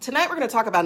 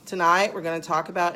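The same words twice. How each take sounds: First: The voice is varied and energetic. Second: The voice is flat and monotonous. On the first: The topic seems exciting. The speaker calls it right. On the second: The topic seems dull. The speaker calls it wrong.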